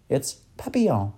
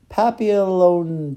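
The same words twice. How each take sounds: First: Said in the usual way. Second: "Papillon" drawn out very slowly and high. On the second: Acted. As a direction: stretch "Papillon" out, hunting the word. Professor searching for a word.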